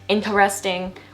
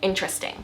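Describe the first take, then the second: First: The word is said with four syllables. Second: The word is said with three syllables. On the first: The speaker calls it wrong. "Instead of saying it four syllables, like a lot of you guys will mispronounce it" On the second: The speaker calls it right. "we just say interesting. Interesting. Three syllables"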